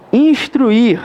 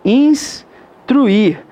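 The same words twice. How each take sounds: First: Said in the usual way. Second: "instruir" split into ins and truir with a pause; syllable by syllable. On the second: Shown as a demonstration. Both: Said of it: "Tá certinha a separação de instruir".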